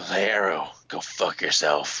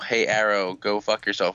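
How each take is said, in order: First: It is said in a gruff Batman voice. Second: It is said in his normal voice.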